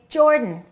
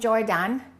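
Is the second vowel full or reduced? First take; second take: reduced; full. First: The second vowel is reduced. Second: The second vowel is full. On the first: The speaker calls it right. "Reduce that A and say" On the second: The speaker calls it wrong. "Don't say he is from Jordan"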